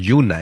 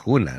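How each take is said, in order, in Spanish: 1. El nombre empieza con un sonido suave de y. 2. El nombre empieza con un sonido áspero y gutural. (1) "ahora decimos Yuna" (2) "no decimos Juna"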